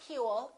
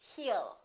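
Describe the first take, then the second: First: The W sound is clearly pronounced. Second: The W sound is dropped entirely. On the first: The speaker calls it wrong. "put a little W and they say he will. It's not he will" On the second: The speaker calls it right. "it's he'll"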